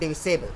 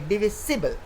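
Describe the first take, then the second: First: The ending sounds like 'sable'. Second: The ending sounds like 'sibble'. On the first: The speaker calls it wrong. "not divisible" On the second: The speaker calls it right. "Like we say divisible"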